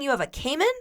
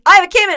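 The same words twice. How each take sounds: First: Said in the usual way. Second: High, loud garbled Cockney; Cockney impression. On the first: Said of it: "yes, that's what he was saying". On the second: Host imitating her hard-to-understand date, loud Cockney. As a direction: blurt it in mock Cockney. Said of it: "I couldn't understand anything he was saying".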